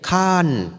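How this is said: It is said with a final n sound.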